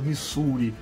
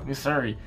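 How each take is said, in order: First: It is said with a Brazilian Portuguese accent. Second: It is said with a Southern US accent. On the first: The speaker calls it wrong. "brasileiro falando inglês, né, que desgraça" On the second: The speaker calls it right. "vamos falar com o sotaque do sul dos Estados Unidos"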